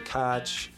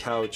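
First: It is said in a Pittsburgh accent. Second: It is said in a standard accent.

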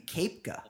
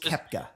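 First: The first vowel is an A sound. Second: The first vowel is not an A sound. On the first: The speaker calls it wrong. "sometimes that makes an A sound. So it could be Koepka" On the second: The speaker calls it right. "but it's"

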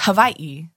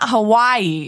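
First: The middle consonant has a slight v sound. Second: The middle consonant is a plain w sound. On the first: The speaker calls it right. "It's Hawaii. No, but not Vi" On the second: The speaker calls it wrong. "It's not Hawaii"

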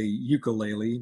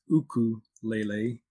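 First: It is said the American way. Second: It is said the Hawaiian way.

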